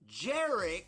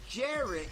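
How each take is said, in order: First: The name begins with a J sound. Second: The name begins with a Y sound.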